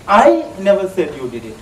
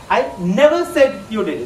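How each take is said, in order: First: The word I carries the emphasis. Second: The word never carries the emphasis. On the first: "put an emphasis on one word there. That is I" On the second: "Just put an emphasis on never"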